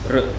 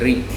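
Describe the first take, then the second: First: It is said as a vocalic r alone. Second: It is said with an i-like vowel: ri. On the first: This is the Sanskrit pronunciation. "in Sanskrit it is R" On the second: This is how Bengali speakers say it. "in Bengali they say Ri"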